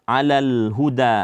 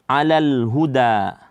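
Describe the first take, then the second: Both takes have the same delivery.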